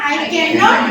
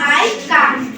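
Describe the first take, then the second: First: Not is said as a separate full word. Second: Not is shortened and joined to can. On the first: "ক্যান নট এটা just একবারে basic level" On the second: "ক্যান নট রে আমরা শর্টে কান্ট হইতে পারি"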